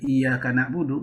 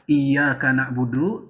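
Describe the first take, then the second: First: The y sound is short and single. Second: The y sound is held long and doubled. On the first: It is the sun we worship. The speaker calls it wrong. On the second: It is you we worship. The speaker calls it right.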